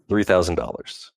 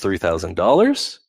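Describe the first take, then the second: First: The pitch falls at the end. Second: The pitch rises at the end. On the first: The speaker sounds sure of the price. The speaker calls it right. "You sound sure" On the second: The speaker sounds unsure of the price. The speaker calls it wrong. "you sound unsure"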